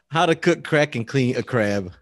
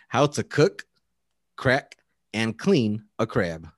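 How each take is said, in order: First: It is said without pauses between the verbs. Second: It has pauses after cook and crack.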